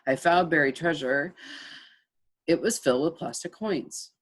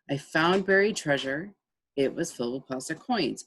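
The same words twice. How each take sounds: First: There is a long pause between the clauses. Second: There is a short pause between the clauses.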